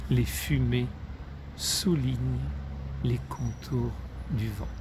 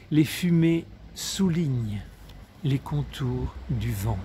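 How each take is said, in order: First: Subdued recital, broken by pauses, fading on "les contours du vent"; poem's fading close. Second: Poetic closing line. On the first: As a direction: let "les contours du vent" die away softly. Repeats closing verse to end poem. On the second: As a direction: recite "Les fumées soulignent" raised, settling on "du vent". First reading of closing verse. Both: A narrator's reading.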